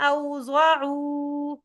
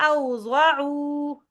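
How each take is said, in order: The two takes are said the same way.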